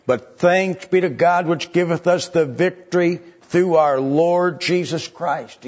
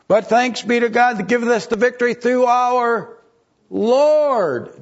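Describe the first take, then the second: First: Preaching at full force. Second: High, loud, swelling sermon cry; preaching at full force. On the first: First reading of the verse. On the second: Preacher rallying his flock, rising to a loud high cry. Second reading of the verse. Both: Acted. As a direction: lift the congregation toward the victory.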